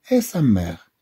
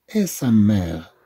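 No difference in how they are said.

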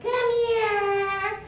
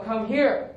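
First: High, drawn-out pleading call; ineffective sweet call. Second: Drill sergeant. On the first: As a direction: coo it up high like calling a puppy. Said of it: "That's not gonna work". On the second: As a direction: give it as a short order. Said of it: "Use your drill sergeant voice". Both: Shown as a demonstration.

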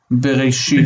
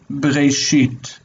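First: Said in the usual way. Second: Bereshit stretched slowly, syllables joined; slow blended demo. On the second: Shown as a demonstration. Teacher joining the syllables for the student, slow bereshit. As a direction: draw out bereshit slowly as one word. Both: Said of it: "And saying it together".

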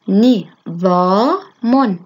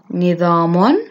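First: نظام drawn out in slow separate syllables; split into syllables. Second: Said in the usual way. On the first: Shown as a demonstration. Teacher breaking a word down for children, syllable by syllable. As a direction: sound out نظام one syllable at a time. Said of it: "تحليل الكلمات إلى مقاطع". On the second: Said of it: "تركيب من المقاطع كلمات".

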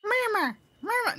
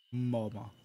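First: Put-on very high squeaky toddler; extremely high little-kid voice; tot voice. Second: Tot voice try-out. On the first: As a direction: put on a tiny child's squeal of a voice. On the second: Acted. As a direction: try the child voice down in your own register. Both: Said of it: "What's a good voice for this tot?".

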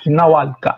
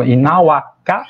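First: "Inaualcá" falling, with an L before ká; lateralised vowel. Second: "Inauacá" slow and rising, no L before ká; without lateralisation. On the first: Linguist contrasts forms, falling "Inaualcá" with L. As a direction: add a small L after the vowel in "Inaualcá". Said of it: "tem uma lateralzinha inserida depois da vogal". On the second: Linguist contrasts forms, slow "Inauacá" without L. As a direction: say "Inauacá" slowly, open vowel straight into k. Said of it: "a diferença de Inauacá pra Inaualcá". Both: Shown as a demonstration.

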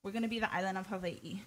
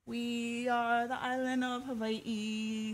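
First: Said in the usual way. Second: Slow, drawn-out, mock solemn declaration; hammed-up slow grand announcement; mock grand pronouncement. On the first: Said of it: "something like this". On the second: Shown as a demonstration. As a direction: proclaim it slowly like a grand joke. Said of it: "something like this. Just kidding".

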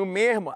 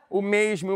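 First: "mesmo" with the s turned to an aspirated r; Rio-style "mesmo", breath in place of s; carioca "mesmo". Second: "mesmo" with a clearly sounded s; careful "mesmo", sibilant before the m; paulistano "mesmo". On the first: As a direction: say "mesmo" as "mermo". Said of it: "A diferença do mesmo pro mesmo". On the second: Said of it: "a questão é que eu". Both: Shown as a demonstration.

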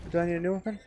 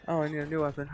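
First: Rising question on new weapon; asking question. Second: Flat dawning realization, no rise; realizing statement. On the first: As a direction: ask it, lifting at the end. Asking, then realizing. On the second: Realizes he needs a weapon. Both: Real, not acted.

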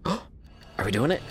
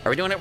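First: Hushed, slow, breathy disbelief; breathless gasp. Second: Excited. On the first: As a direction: gasp it out in awe. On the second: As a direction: burst out thrilled. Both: Real, not acted. Excited at game moment.

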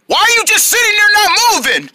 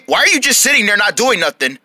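First: High, whiny outburst; high-pitched frustrated complaint; exasperated demand. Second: Said in the usual way. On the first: Acted. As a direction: demand an answer, losing patience. Losing patience with silent friend.

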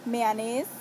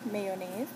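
First: "mayonnaise" as MAY-ah-nays, open middle vowel; "mayonnaise" pronounced meh-ah-nehs; Saint Croix "mayonnaise". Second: "mayonnaise" as MAY-oh-naze; "mayonnaise" pronounced may-yo-nayz; standard "mayonnaise". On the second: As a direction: say "mayonnaise" with a yo in the middle, lower. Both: Shown as a demonstration. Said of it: "in my accent".

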